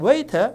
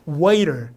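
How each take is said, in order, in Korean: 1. t는 또렷하게 나고 마지막 r 소리는 빠집니다. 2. t는 탄설음으로 나고 마지막 r 소리도 납니다. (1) "영국식으로 하자면 어떻게 되냐면 T를 세게 하겠죠. R 발음 빠져요" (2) "리을 발음으로 바뀌고 R을 세게 하는"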